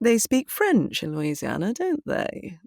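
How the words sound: It is said in a proud, show-off tone. The character is showing off worldly knowledge. "trying to go, look how knowledgeable and worldly I am"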